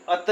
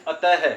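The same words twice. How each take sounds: First: अत said short with no breath at the end; the clipped अत, no final h; wrong way. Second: अतः with a clear breathy h at the end; right way. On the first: Teacher shows students the wrong अत, plainly. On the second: Teacher shows students the correct अतः, clearly. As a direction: finish अतः on an audible ह sound. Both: Shown as a demonstration. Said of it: "इसको हम अत नहीं बोलते".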